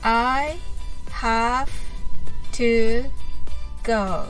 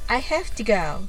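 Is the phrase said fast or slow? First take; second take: slow; fast. First: The phrase is said slowly. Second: The phrase is said quickly. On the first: "はじめはゆっくりです。" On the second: "次に早く言ってみましょう。"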